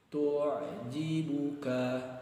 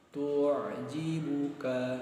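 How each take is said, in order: The two takes are said the same way.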